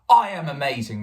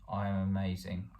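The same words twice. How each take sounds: First: It is said with strong emotional intensity. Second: It is said flatly, without emotional intensity. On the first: The speaker truly believes it. The speaker calls it right. "say it with emotional intensity" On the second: The speaker does not really believe it. The speaker calls it wrong. "rather than"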